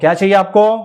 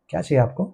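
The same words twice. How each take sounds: First: It is said loudly and over-emphatically. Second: It is said at a normal, casual volume. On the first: The listener is treated as if unable to hear. The speaker calls it wrong. "इस तरह से बात करेगा। ... वो blind है, बहरा थोड़ी है।" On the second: The listener is treated as an ordinary customer. The speaker calls it right. "Cited व्यक्ति से कैसे बात करेगा?"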